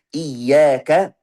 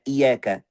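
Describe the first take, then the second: First: "Iyaka" with a held, doubled y, loud; with tasydid. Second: "iyaka" with a light, single y; without tasydid. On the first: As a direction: press firmly on the y of "Iyaka", as "iyyaka". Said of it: "Ada yang baca iyaka tanpa tasydid". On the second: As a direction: let the y of "iyaka" pass without doubling. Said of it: "tanpa tasydid". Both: Shown as a demonstration.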